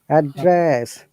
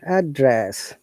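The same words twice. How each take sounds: First: The pitch goes from low up to high. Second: The pitch goes from high down to low. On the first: It is used as a verb. "Down to upper" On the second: It is used as a noun. "Upper to down"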